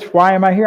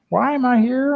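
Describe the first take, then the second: First: It is said in a plain voice. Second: It is said in a whiny voice.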